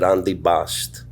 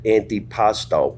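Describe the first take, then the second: First: The final vowel is dropped. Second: The final vowel is pronounced. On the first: This is the form the family actually used. "We said antipast" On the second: This is the standard form the family never used. "We never said antipasto"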